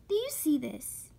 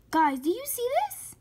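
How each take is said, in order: First: Said in the usual way. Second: Excited. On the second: Real, not acted. Showing viewers a surprising find.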